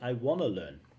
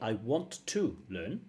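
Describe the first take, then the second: First: 'Want to' is reduced and blended into 'wanna'. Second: Both words 'want to' are said in full. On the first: "You can say I wanna learn" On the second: "You can say I want to learn"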